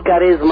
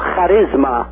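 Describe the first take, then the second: First: It begins with a plain k sound. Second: It begins with a throaty kh sound. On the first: "بالإنجليزي بيقولوا كاريزما" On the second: "بالإغريقي بيقولوا خاريزما"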